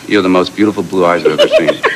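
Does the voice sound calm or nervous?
nervous. It is said in a shaky, nervous voice.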